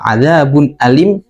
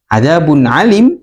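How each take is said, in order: First: Alim starts with a plain glottal stop. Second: Alim starts with a throaty ain sound. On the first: A punishment that is very painful. The speaker calls it right. "adab yang sangat pedih" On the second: A punishment that is all-knowing. The speaker calls it wrong. "adab yang maha mengetahui"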